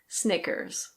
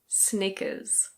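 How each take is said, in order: First: The R at the end is pronounced. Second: The R at the end is not pronounced. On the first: "In American English, the R is pronounced" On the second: "In British English, this is Snickers"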